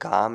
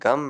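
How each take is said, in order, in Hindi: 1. स्वर को लंबा खींचा जाता है। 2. स्वर को छोटा रखा जाता है। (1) "अगर मैं गम को गाम कह रहा हूँ" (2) "गाम नहीं है, गम है"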